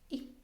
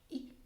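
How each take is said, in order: No difference in how they are said.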